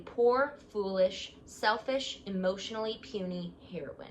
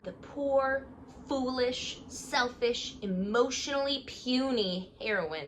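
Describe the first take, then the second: First: Said in the usual way. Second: Poor, foolish, selfish, emotionally puny, higher, each word pointed; mocking emphasis. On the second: Shown as a demonstration. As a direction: jab every insult with a sneer. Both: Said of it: "how they talk about Savannah".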